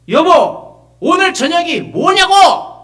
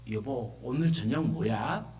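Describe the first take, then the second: First: It is said in a loud voice. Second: It is said in a quiet voice.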